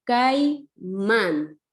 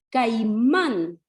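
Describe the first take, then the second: First: Caimán broken as cai, pause, mán; caimán in two distinct beats, cai and mán; split into syllables. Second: Caimán as a whole word, stressed on mán; Caimán with the weight on its ending; stress on final syllable. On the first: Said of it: "se divide así". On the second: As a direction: reinforce the last syllable of Caimán. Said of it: "Es donde yo refuerzo mi voz". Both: Shown as a demonstration.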